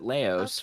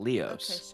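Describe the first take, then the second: First: The first vowel sounds like 'lay'. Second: The first vowel sounds like 'lee'. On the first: "they pronounce it Laos" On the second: "what would normally pronounce Leos"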